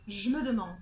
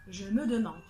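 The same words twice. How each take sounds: First: The vowel of je is dropped. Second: Every vowel is pronounced.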